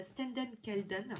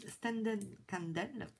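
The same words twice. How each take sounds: First: Stenden Kelden said the French way, all vowels flat and nasal; French-accented name. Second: Standen Kandel said slowly, the English way, with a clear st and a short e; English-style name. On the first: Vlogger reads the brand name with her French accent. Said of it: "que dit avec mon accent". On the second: Vlogger corrects the brand name, slowly in English style. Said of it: "C'est mieux, hein". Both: Shown as a demonstration.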